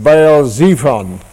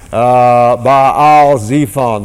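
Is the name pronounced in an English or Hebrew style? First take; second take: English; Hebrew. First: The name is read with plain English pronunciation. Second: The name is said with a Hebrew-style pronunciation.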